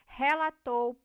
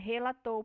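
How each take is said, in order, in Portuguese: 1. A primeira vogal e é aberta. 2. A primeira vogal e é fechada. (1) "no dialeto do Nordeste, nós vamos ter essas vogais abertas" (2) "no meu dialeto, essas vogais vão ser fechadas"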